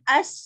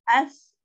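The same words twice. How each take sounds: First: The final consonant is a plain s. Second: The final consonant is a th sound. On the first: The speaker calls it wrong. "Bukan as gitu ya. ... Nah itu lidahnya nggak keluar" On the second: The speaker calls it right. "ujung lidah tersebut bertemu dengan ujung gigi depan bagian atas maka berbunyi"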